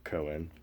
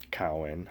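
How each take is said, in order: First: The first vowel sounds like 'oh'. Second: The first vowel sounds like 'ow'.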